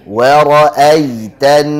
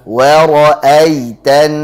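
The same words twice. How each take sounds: The two takes are said the same way.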